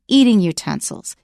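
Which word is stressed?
eating. The stress falls on the word eating. Utensils that are used for eating. The speaker calls it right. "we don't stress the second noun, the noun that is modified. So we say eating utensils"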